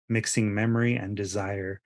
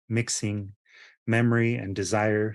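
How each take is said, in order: First: It flows without a pause after mixing. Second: There is a pause right after mixing. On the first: It is read as ordinary prose. "if you were to read it as a regular standard sentence in prose" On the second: It is read as the poem's line breaks. "there's a pause after the words breeding, mixing"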